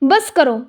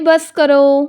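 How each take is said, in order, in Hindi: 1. यह कठोर और रूखे लहजे में कहा गया है। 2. यह प्यार भरे, स्नेहपूर्ण लहजे में कहा गया है। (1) "अगर मैं रूड वे में बोलूँ" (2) "मैंने प्यार से बोला"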